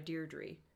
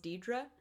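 First: The first R is pronounced. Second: The first R is not pronounced. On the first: "some people do go by Deirdre" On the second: "just don't pronounce the first R"

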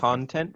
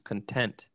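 First: The first vowel is a full ah sound. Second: The first vowel is reduced to a schwa. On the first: "That's the vowel in con" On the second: "it sounds like the ah sound has been reduced to a schwa"

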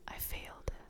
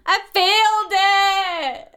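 First: It is said quietly. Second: It is said loudly.

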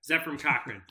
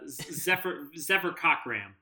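First: The surname ends with an n sound. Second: The surname ends with an m sound. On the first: The speaker calls it right. "There you go. I'm so proud of you" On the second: The speaker calls it wrong. "I should have mispronounced it"

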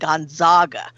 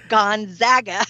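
First: The middle syllable does not sound like 'zag'. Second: The middle syllable sounds like 'zag'. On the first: The speaker calls it wrong. "she was always saying Gonzaga" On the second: The speaker calls it right. "it's like zigzag"

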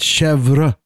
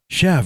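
First: It is said with a fuller French ending. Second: It is said as one short clipped syllable. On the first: This is the technically correct but pretentious way. "technically it's Chevre" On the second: This is the everyday local way to say it. "and that's what I said"

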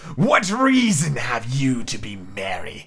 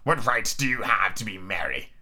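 First: It is said in an impression of Snape. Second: It is said without a Snape impression.

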